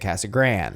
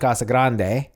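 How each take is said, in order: First: The name is said with an Americanized pronunciation. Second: The name keeps its original Spanish pronunciation. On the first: This is how locals actually say it. "but we say Casa Grande" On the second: This is the town's real name. "we live in Casa Grande"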